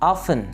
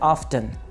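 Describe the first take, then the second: First: No t sound is heard in the middle. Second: A t sound is heard in the middle. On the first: "दोनों तरह से ठीक है" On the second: "दोनों तरह से ठीक है"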